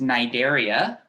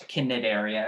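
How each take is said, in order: First: Cnidaria begun on an N sound, C silent. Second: Cnidaria with the C voiced as a hard K; sounded C. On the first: Teacher showing students how it's pronounced, Cnidaria with silent C. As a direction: say Cnidaria as "nye-DAIR-ee-a". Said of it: "The C is silent". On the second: Teacher warning students off a misreading, Cnidaria with hard C. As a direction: say Cnidaria starting "kuh-nih", C sounded. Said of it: "not Cnidaria or anything". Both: Shown as a demonstration.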